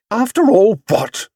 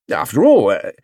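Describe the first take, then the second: First: High, challenging retort; firm. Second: Starts an argument and tails into "uh"; hesitant. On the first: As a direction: cut in firmly, pitched high. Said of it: "Missus Brown's voice had a firm note". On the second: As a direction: begin "After all", then falter. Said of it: "Mister Brown hesitated". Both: A narrator's reading.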